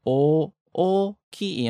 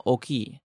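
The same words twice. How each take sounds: First: Oki very slow, two separate O's, the second higher; two O's, rising. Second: Oki with only one short O, quick and softer; wrong short O. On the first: Teacher corrects the one-O mistake, oki with long rising double O. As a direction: stretch oki into o-o-ki, pitch going up on the second O. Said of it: "the intonation goes up for the second O". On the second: Teacher warns listeners of the mistake, oki with one short O. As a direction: say oki wrongly, clipping the opening to a single O. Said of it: "It's not one O". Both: Shown as a demonstration.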